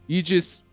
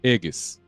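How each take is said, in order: First: The word is said the usual English way. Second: The word is said with a Slavic pronunciation. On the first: "It wasn't Aegis or anything like that" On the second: "It was Aegis. That's like the Slavic, Slavic pronunciation"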